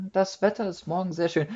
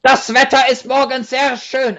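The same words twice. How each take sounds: First: Said in the usual way. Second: Mock harsh German. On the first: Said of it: "and I can say". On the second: Shown as a demonstration. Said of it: "I can say".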